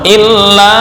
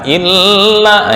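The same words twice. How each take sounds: First: The word is said quickly and directly. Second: The word is drawn out too long. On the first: The speaker calls it right. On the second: The speaker calls it wrong. "itu kelamaan"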